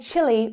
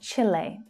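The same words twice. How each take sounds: First: It is said the common English way. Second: It is said closer to the local way. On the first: This is how most English speakers say it. "most English speakers will say Chile" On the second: This is how people who have visited say it. "pronounce it a bit more like the locals"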